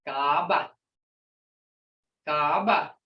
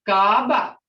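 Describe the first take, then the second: First: Gaba plainer, long ah; repeat. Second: Gaba louder, with a long ah and a clear tone; tone shown. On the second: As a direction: hit the tone on Gaba. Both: Shown as a demonstration. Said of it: "Hear that tone, guys?".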